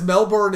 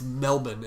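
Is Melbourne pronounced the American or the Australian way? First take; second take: American; Australian. First: It uses the American pronunciation of the name. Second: It uses the Australian pronunciation of the name. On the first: The speaker calls it wrong. "Melbourne is how we Americans say it" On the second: The speaker calls it right. "Australians say, "You idiots, it's Melbourne.""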